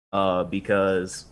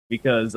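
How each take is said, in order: First: Said in the usual way. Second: Laughing. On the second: Real, not acted. Laughs mid-sentence.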